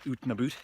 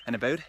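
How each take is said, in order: First: "oot and about" with "about" said as "aboot", a caricatured Canadian vowel. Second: Said in the usual way. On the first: Shown as a demonstration. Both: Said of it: "not oot and about".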